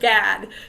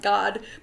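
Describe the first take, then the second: First: The vowel is the 'a' of 'cat'. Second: The vowel is an open 'ah' sound. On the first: "the American pronunciation" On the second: "in Hebrew it would be pronounced God"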